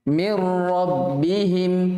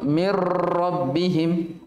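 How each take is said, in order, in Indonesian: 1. Huruf r digetarkan dengan getaran yang normal dan ringan. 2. Huruf r digetarkan dengan getaran yang berlebihan. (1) "Biasa saja" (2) "getaran pada ro berlebihan ... jangan terlalu"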